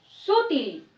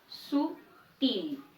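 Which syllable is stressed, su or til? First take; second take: su; til. First: The stress is on the first syllable. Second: The stress is on the second syllable. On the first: The speaker calls it wrong. "si lo pronunciara inadecuado sería su" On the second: The speaker calls it right. "cuya fuerza está en til"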